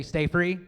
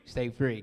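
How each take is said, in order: First: Call response. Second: Said in the usual way. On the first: Shown as a demonstration. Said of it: "you guys say, say". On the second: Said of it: "Can we try that?".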